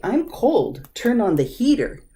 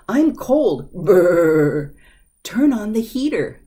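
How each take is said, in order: First: Said in the usual way. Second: Louder, with a loud shivering brr; shivering cold. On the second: Shown as a demonstration. Teacher adding brr to stress how cold it is. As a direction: add the shiver for emphasis. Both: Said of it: "give more emphasis to it".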